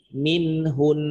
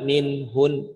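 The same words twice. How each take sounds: First: The final nasal sound is held long. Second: The final nasal sound is cut short. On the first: Both doubled letters are kept. The speaker calls it right. "dipanjangkan gunnahnya tadi" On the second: One of the two doubled letters is lost. The speaker calls it wrong. "Jangan cuma dibaca minhun"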